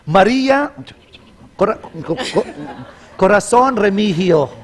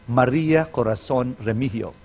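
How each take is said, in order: First: The name breaks off and restarts midway. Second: The name is said smoothly without breaks. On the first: The speaker calls it wrong. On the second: The speaker calls it right.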